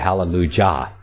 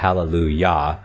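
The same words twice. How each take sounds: First: The j is pronounced as a hard j sound. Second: The j is pronounced as a y sound. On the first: The speaker calls it wrong. "pronouncing it with a J ... That doesn't quite sound right" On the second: The speaker calls it right. "the J is silent"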